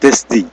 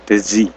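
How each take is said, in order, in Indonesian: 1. Bunyi d di tengah diucapkan dengan jelas. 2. Bunyi d di tengah dihilangkan. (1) "Tapi D-nya jangan hilang ya" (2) "Kalau D-nya hilang jadi apa? Jadi Dezi"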